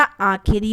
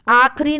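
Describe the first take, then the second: First: आखिरी as slow aa-khi-ri; correct form. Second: आखिरी said as aakhri; wrong form. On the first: Teacher restoring the vowel, आखिरी slowly in three syllables. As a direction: sound the middle i of आखिरी. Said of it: "आखिरी होता है". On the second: Teacher showing the missing vowel, आखिरी squeezed to aakh-ri. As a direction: drop the middle i of आखिरी. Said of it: "आखिरी नहीं होता". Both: Shown as a demonstration.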